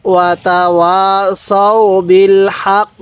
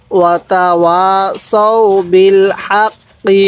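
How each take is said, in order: First: হাক cut off on the k, final vowel dropped; stopping pause form. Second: হাক্কি said with full final ki vowel; full reading without stop. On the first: Teacher shows stopping at the verse end, clipped final. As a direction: stop on হাক with no vowel after. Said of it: "এখন যদি ওয়াকফ করি তাহলে". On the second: Teacher shows the reading before the pause, full ending. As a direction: read হাক্কি to the end, vowel included. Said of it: "এখন যদি ওয়াকফ করি". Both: Shown as a demonstration.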